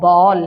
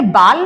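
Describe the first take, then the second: First: The vowel is a rounded 'aw' sound. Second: The vowel is an open, unrounded 'aa' sound. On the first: The speaker calls it right. "इसका उच्चारण आपका क्या हो गया? ओ" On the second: The speaker calls it wrong. "ये बाल नहीं होगा बेटा"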